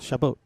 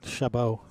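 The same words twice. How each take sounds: First: The name ends with an audible T sound. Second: The name ends without a T sound. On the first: "Natalie pronounces the T ... in a French way" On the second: "without pronouncing the T at the end"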